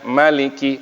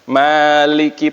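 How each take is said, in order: First: The first vowel is kept short. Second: The first vowel is held long.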